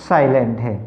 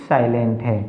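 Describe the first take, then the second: The two takes are said the same way.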